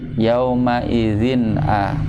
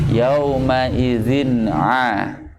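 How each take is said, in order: First: The throat sound is relaxed and light. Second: The throat sound is heavy and forceful. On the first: The speaker calls it wrong. "lebih rileks kan?" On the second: The speaker calls it right. "harus lebih berat lagi ya, berupaya lagi, lebih kuat lagi"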